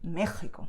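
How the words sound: The h-like sound in the middle is strong. The speaker sounds like someone from Madrid. "someone from Madrid would say Mexico, stronger"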